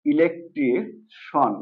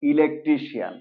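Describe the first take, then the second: First: "ইলেকট্রিশন" slowly, ending in one syllable shon; correct SHON ending. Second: "ইলেকট্রিশিয়ান" ending in two syllables, shi-yan; common mispronunciation. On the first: Teacher gives the correct pronunciation, "ইলেকট্রিশন" ending in shon. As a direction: draw out "ইলেকট্রিশন" as e-lek-tri, then shon. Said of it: "correct pronunciation হলো". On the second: Teacher quotes the common form, "ইলেকট্রিশিয়ান" ending shi-yan. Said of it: "আমরা এটাকে বলি". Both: Shown as a demonstration.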